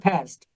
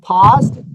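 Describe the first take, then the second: First: It is said with an American accent. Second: It is said with a British accent.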